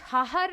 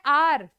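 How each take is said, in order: First: The word begins with an audible h sound. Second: The word begins with a vowel, h silent. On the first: The speaker calls it wrong. "ये हाहर नहीं होता" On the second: The speaker calls it right. "एच silent होता है"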